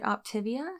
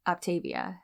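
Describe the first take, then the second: First: "Optivia" with a short i in the middle; alternative pronunciation. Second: "Optavia" with a long AY in the middle; disputed pronunciation. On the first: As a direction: say "Optivia" as op-TIV-ia. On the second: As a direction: say "Optavia" as op-TAY-via. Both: Shown as a demonstration. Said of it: "you say Optavia wrong".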